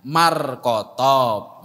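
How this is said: The name is clipped into a Javanese form. "kalau di Jawa jadinya Markotob"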